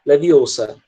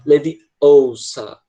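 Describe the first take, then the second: First: Leviosa with shorter, flatter American vowels. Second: Leviosa with long, stressed British vowels, said slowly. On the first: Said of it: "bem mais curto". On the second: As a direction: draw out the vowels of Leviosa like Hermione. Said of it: "essas vogais são, tipo, bem enfáticas". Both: Retold or imitated.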